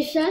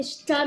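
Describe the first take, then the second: First: Said in the usual way. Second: "ch'ta", a tentative ch'ti take on chat; ch'ti pronunciation. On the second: Shown as a demonstration. Guessing the ch'ti word "ch'ta" for cat, unsure. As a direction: say "ch'ta" with a ch sound at the start, unsure. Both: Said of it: "je crois que c'est ch'ta".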